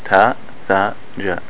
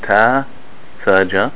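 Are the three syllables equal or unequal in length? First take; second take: equal; unequal. First: All three syllables are held for equal length. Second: The three syllables are held for unequal lengths. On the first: The speaker calls it right. "all of them should be pronounced the same" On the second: The speaker calls it wrong.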